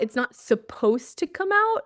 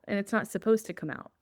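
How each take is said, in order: First: It's not supposed to come out? thrown back higher, rising in offended disbelief; echoing God's words in mock outrage, higher and rising; incredulous echo. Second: Said in the usual way. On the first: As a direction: repeat his words back as if you can't believe them. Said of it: "One more time". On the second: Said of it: "And I heard him say".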